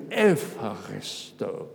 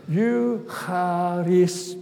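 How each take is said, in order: First: Slow, lower Eucharisto with a v sound, Evharisto; modern Greek pronunciation. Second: Slow, careful Greek Eucharisto, syllable by syllable; Greek word demo. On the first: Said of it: "modern Greek". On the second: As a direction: say Eucharisto slowly and clearly, ancient Greek style. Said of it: "The word at the top there". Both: Shown as a demonstration.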